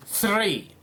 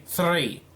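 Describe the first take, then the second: First: Said in the usual way. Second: THREE with a trilled R; rolled R. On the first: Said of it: "I couldn't roll". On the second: Shown as a demonstration. Commentator attempting a trill, rolled R in THREE. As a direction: roll the R right after the TH in THREE. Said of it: "Well, I just did it there".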